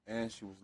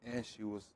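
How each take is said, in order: Both takes have the same delivery.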